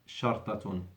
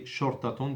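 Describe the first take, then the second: First: It is pronounced as the word for hyphen. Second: It is pronounced as the word for police. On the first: It means a hyphen or dash. The speaker calls it right. "is one hyphen" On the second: It means police. The speaker calls it wrong. "don't say شرطة, that is police"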